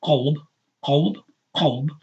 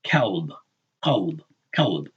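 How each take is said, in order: First: "kalb" with a back q and rounded, o-like vowel; qaf pronunciation. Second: "kalb" with a front k and light a; kaf pronunciation. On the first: Contrasting the word for heart, back qaf sound. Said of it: "That's what the kaf on the front". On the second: Warning learners about the word for dog, clear kaf. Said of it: "you're pronouncing the kaf". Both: Shown as a demonstration.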